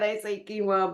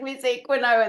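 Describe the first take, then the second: First: It is said the American way. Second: It is said the British way.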